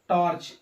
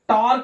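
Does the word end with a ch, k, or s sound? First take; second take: ch; k. First: The word ends with a ch sound. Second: The word ends with a k sound. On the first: The speaker calls it right. "क्या पढ़ेंगे, चा" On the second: The speaker calls it wrong. "यहां टार्क नहीं पढ़ेंगे"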